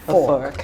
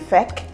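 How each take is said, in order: First: The vowel sounds like the one in 'for'. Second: The vowel sounds like the one in 'bed'. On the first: The speaker calls it right. "What we say is fork" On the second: The speaker calls it wrong. "we don't say feck"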